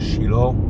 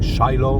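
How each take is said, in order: First: The name is pronounced the Hebrew way. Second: The name is pronounced the English way. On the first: "we say in Hebrew Shiloh" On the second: "In English, many pronounce the name Shiloh"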